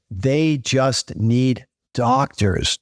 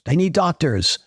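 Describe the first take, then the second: First: Slow, weighty stress on They; They just need doctors, each word spaced out with They leaned on hardest; emphatic. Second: They need doctors, quicker with stress on need; a faster echo landing on need; quick restatement hitting need; lighter repeat. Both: Real, not acted.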